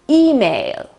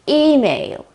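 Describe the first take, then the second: First: The stress is on the first syllable. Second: The stress is on the first syllable.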